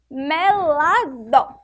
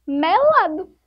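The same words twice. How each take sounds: First: Melado drawn out slowly and a little louder; slow, louder sounding out. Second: Said in the usual way. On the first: Shown as a demonstration. Teacher gives the finished word to the class, slowly. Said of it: "pra ficar melado". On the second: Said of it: "formamos a palavra".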